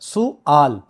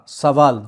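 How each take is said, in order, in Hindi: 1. पहला स्वर 'u' की आवाज़ है, 'v' के बिना। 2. पहला स्वर 'a' की आवाज़ है, 'v' के साथ। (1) "अरबी जुबान का जो सही और दुरुस्त लफ्ज" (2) "हम करते हैं सवाल, सीन पर फता"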